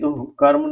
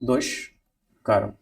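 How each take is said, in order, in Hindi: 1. 'karm' से पहले 'h' की ध्वनि आती है। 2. 'karm' से पहले 'sh' की ध्वनि आती है। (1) "गलत है" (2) "ये सही है"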